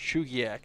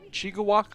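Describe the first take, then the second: First: The name is said as Chugiak. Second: The name is said as Chigawak. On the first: The speaker calls it right. "Now that I know it's Chugiak, I'll never say it wrong again" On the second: The speaker calls it wrong. "I think is how I was saying it. That's not right though"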